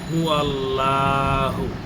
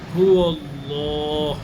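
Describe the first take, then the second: First: The 'l' in Allah is thin and light. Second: The 'l' in Allah is thick and heavy. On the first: The speaker calls it wrong. "এখানে বেশিরভাগ মানুষই পড়ে থাকে" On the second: The speaker calls it right. "সঠিক উচ্চারণ হলো হুয়াল্লাহ। আপনি এটি আল্লাহ মোটা করে পড়তে হবে"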